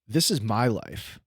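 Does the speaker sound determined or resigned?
determined. It is said with confident, determined energy. The speaker is in control of their own life.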